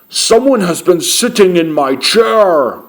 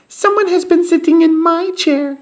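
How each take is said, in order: First: A loud, deep, booming big voice. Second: A tiny, high, squeaky voice.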